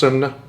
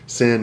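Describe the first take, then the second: First: The vowel is rounded, with a second syllable. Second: A short vowel in one syllable. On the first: "originally it's pronounced" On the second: "American is going to intuitively say it that way"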